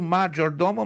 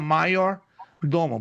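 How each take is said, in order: First: The middle consonant sounds like 'zh'. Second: The middle consonant sounds like 'y'. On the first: "Se escreve major domo" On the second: "mas se pronuncia maior domo"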